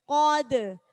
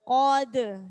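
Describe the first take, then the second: The two takes are said the same way.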